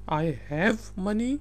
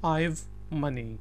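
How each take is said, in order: First: Have is said in full as its own word. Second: Have is shortened and joined onto I.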